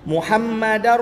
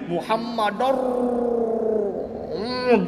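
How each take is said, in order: First: The word runs on with no nasal hum. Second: A nasal hum is added after the word. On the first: The speaker calls it right. "idgham bila gunnah tanpa ada dengung" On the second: The speaker calls it wrong. "tambah dengung, contoh dia tak boleh"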